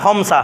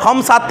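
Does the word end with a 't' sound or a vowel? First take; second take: vowel; t sound. First: The word ends on a vowel without t. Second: The word ends with a clear t sound. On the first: The speaker calls it right. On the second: The speaker calls it wrong.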